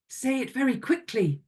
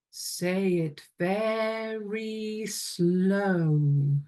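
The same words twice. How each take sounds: First: Quick, higher-pitched patter. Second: Extremely stretched-out, slow chant. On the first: Teacher leading a class echo game, very quick delivery. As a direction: rattle it off quickly. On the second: Teacher leading a class echo game, very slow delivery. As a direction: draw every word right out, very slowly. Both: Shown as a demonstration.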